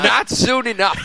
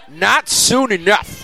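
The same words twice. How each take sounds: First: The voice squeaks on the word "not". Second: The voice is low and deep throughout.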